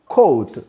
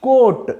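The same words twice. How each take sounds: First: కోట్ as "coat", O sliding towards "oo"; falling, glided "koh-oot" for కోట్; gliding O. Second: కోట్ as "court", high and loud with an unglided O; single long O. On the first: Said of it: "ఓ, glide రావాలి". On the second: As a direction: hold one pure O in కోట్, no "oo" glide. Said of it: "రెండింటికి చూడండి". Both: Shown as a demonstration.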